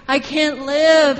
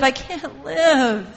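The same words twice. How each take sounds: First: Much louder, slow, drawn-out cry of pain; anguished roar. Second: Anguished roar, repeated. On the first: God roaring from within his body, loud slow anguish. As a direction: roar it slowly like a heart breaking. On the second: God roaring from within his body, slow aching cry. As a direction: let the roar ring out again slowly. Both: Retold or imitated. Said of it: "in his own body roaring".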